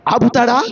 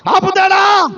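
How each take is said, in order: First: Low-pitched rhetorical question. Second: High, called-out rhetorical question; raised challenge. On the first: Preacher asks the congregation would He stop you, low and restrained. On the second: Preacher challenges the congregation would He stop you, raised and emphatic. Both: Real, not acted.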